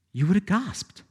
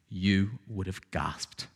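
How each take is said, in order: First: Raised again with weight on have; restated with a rising finish; emphatic repeat. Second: Soft, slow, low; lowered, quiet and slow; hushed wonder. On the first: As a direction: lift it as a challenge. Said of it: "repeated phrase". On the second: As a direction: let it fall away in awe. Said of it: "repeated phrase, soft then raised". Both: Shown as a demonstration.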